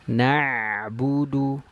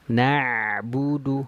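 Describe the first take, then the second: First: The ain sound flows only briefly, half-held. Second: The same.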